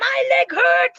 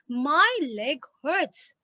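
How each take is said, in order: First: It is said with strong, exclaiming emotion. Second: It is said calmly, as a plain statement. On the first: The speaker is exclaiming about the pain. "I'm not saying it like that" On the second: The speaker is simply informing the listener. "I'm just telling it"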